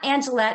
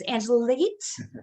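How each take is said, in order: First: The vowels are not said as long E sounds. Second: The vowels are said as long E sounds. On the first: The speaker calls it wrong. "I was pronouncing it wrong. It's not" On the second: The speaker calls it right. "long E's"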